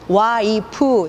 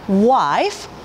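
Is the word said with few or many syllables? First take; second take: Many; Few. First: The word is broken into three syllables. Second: The word is said as one compact syllable. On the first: The speaker calls it wrong. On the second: The speaker calls it right.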